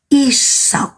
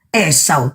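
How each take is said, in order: First: The name begins with an I sound. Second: The name begins with an E sound. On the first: The speaker calls it right. "E-nya dibaca I, jadi Isau" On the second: The speaker calls it wrong. "sampean kok bacanya Esau"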